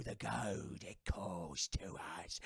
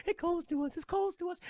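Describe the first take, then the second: First: Much lower, soft, slow hungry whisper; eerie ghost whisper. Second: Chanted, much higher ghostly wail; high eerie chant. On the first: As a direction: breathe it like a ghost starving for gold. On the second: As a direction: sing it out like a lost spirit. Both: Retold or imitated. Cursed pirates craving gold.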